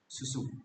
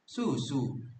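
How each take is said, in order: First: It is short and flat with clear vowels. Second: It is melodic with the last vowel elongated. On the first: It is the Padang way of saying it. "Padang dialect has a flatter intonation with a short and clear vowel articulation" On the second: It is the Lima Puluh Kota way of saying it. "a more melodic intonation"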